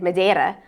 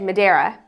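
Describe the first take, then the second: First: The name is pronounced with Portuguese sounds. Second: The name is pronounced with English sounds. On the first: It is the native pronunciation of the name. "rather than Madeira" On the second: It matches the language being spoken. "you said Madeira"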